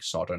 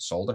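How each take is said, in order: First: The word is said without an L sound. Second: The word is said with an L sound. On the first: This is how Americans say it. The speaker calls it wrong. "why you're saying solder" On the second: This is how the speaker says it. The speaker calls it right. "not solder"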